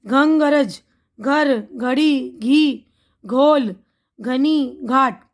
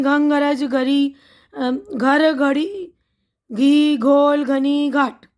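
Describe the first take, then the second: First: Each word drawn out slowly; slow and careful. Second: A brisk run through the words; quick tongue twister. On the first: Teacher spelling out words for children, slow and careful. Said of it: "अब देखिए घ का लफ्ज़ है". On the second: Teacher drilling the tongue twister for children, brisk. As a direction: rattle off the word list quickly. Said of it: "तो जल्दी जल्दी पढ़ते हैं". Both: Shown as a demonstration.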